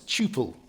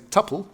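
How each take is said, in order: First: The word does not rhyme with supple. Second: The word rhymes with supple. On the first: The speaker calls it right. "It's not, it's tuple" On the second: The speaker calls it wrong. "If you hear people say tuple, they're wrong. If it would have two P's, then it would rhyme with supple"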